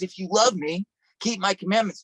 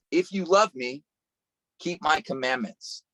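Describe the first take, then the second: First: Higher, stronger repeat of the verse; rising preacher emphasis; preaching it out. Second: Calm scripture read. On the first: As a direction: press the command home to the crowd. Repeating Jesus' words with force. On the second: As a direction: lay the verse down gently. Reading the verse from John. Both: Acted.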